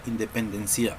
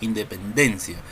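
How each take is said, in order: First: The stress is on the last syllable. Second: The stress is on the fourth syllable. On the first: The speaker calls it wrong. "Tampoco decimos" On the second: The speaker calls it right. "mayor fuerza de voz en la penúltima sílaba"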